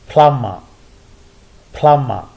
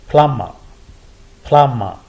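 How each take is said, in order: The two takes are said the same way.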